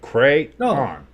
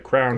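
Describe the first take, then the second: First: The word is said with two full syllables. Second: The word is squeezed into one syllable. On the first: It follows the spelling. The speaker calls it right. "It's C R A Y O N" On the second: It is the local regional way of saying it. The speaker calls it wrong. "it's crown or whatever"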